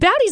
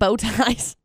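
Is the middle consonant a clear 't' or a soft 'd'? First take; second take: soft d; clear t. First: The middle consonant is a soft 'd' sound. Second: The middle consonant is a clear 't' sound. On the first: The word is mistaken for a different pasta name. The speaker calls it wrong. "she always pronounced it at. That was Bowdy's" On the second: The pasta is named after bow ties. The speaker calls it right. "that's what they are"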